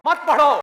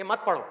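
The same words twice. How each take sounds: First: Loud, higher acted order; raised voice, forbidding someone outright; shouted forbidding. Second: Said in the usual way. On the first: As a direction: shout it as a stern ban. Acts out world forbidding study.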